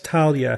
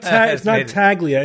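First: The gl is sounded like ly. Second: The g is sounded as a hard g. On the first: The speaker calls it right. "It's Talia. GL is like LY" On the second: The speaker calls it wrong. "It's not Taglia"

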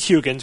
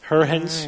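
First: The name is pronounced with American English sounds. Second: The name is pronounced with Dutch sounds. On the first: "We'll Americanize it for this show" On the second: "I listened to the pronunciation of his name online, and if the internet is correct, it's Huygens"

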